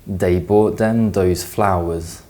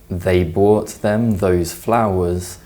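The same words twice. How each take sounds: First: They, them and those begin with a hard d sound. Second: They, them and those begin with a soft th sound. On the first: "may also be pronounced" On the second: "a phrase like"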